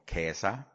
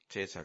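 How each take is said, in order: First: The name is said in the Latin way. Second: The name is said in the usual German way. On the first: The speaker calls it right. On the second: The speaker calls it wrong.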